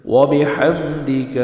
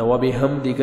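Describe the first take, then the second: First: وَبِحَمْدِكَ with a clear ha; correct reading. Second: وَبِحَمْدِكَ with the ha dropped and an added final a; wrong pronunciation of وَبِحَمْدِكَ; wrong reading. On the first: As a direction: say it properly, ha sounded. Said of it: "اس میں دیکھیں ہا ہے". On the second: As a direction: show the mistake, dropping the ha. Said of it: "ہا نہیں پڑھنا". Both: Shown as a demonstration.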